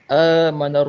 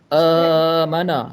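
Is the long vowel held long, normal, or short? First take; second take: normal; long. First: The long vowel is held for a normal length. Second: The long vowel is stretched out extra long. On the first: The speaker calls it right. "Kalau normal kita baca dengan, dengan dua harakat" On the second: The speaker calls it wrong. "Kalau tambah amana, lebih dua-dua harakat"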